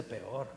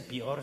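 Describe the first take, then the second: First: "peor" said as "pe-or", two clear syllables; correct pronunciation. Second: "peor" said as "pior", two syllables squeezed into one; wrong pronunciation. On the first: Preacher correcting himself before the congregation, "peor" said pe-or. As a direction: split "peor" into pe and or. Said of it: "se dice peor". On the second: Preacher demonstrating the incorrect form to the congregation, "peor" said as "pior". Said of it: "No se dice peor". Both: Shown as a demonstration.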